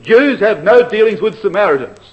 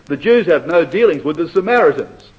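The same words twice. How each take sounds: First: "no" hit hard, articles dropped; more emphatic. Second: Said in the usual way. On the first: Shown as a demonstration. Preacher showing the Greek reading, stress on "no". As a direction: lean on "no" in "Jews have no dealings". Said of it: "It's even more emphatic if you leave the article out". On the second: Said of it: "You can leave out the definite article".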